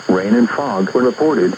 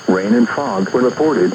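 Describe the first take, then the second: No difference in how they are said.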